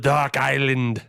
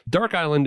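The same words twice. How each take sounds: First: It is said in a put-on Scottish accent. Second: It is said in a plain American accent. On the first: "You sound like an Irishman who lived in Scotland for two years" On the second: "use my radio voice"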